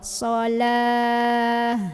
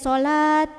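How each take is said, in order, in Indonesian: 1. Kata ini berakhir dengan bunyi h. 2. Kata ini berakhir dengan bunyi t. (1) "kalau berhenti ... jadi hak sukun" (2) "bukan jadi sholat"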